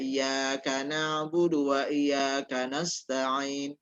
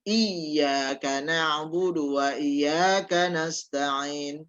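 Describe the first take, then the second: First: Neither iyyaka is said with a doubled y. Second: Only the first iyyaka has a doubled y. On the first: "membaca tidak ditasydidkan" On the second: "ada pertamanya tasydid, yang keduanya tidak"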